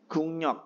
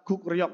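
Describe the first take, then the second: First: It is read with ng then n in the middle. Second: It is read with k then r in the middle. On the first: The speaker calls it right. "dibacanya menjadi eng" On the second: The speaker calls it wrong. "gukryok tulisannya"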